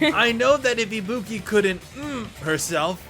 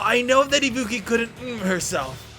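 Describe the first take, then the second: First: The voice rises at the end like a question. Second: The voice falls at the end like a statement.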